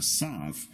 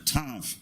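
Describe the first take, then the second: First: The word begins with an S sound. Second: The word begins with a T sound.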